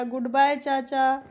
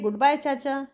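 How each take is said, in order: First: Slow, drawn-out reluctant goodbye; poor-thing farewell. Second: Said in the usual way. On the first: Acted. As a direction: stretch the goodbye out, mildly forlorn. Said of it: "कोको बोलता है फिर बेचारा". (बेचारगी से, धीरे-धीरे खींचकर) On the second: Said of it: "मिमी तिनसु भी क्या बोलते हैं".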